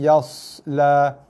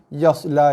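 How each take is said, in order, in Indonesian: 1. Bunyi s ada sedikit desisan. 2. Bunyi s tidak ada desisan tambahan. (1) "bunyi sedikit desiran pada huruf sod" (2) "Bukannya yasla"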